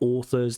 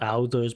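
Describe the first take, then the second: First: The first vowel sounds like the 'or' in horse. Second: The first vowel and th sound are off. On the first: The speaker calls it right. "but authors" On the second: The speaker calls it wrong. "not authors"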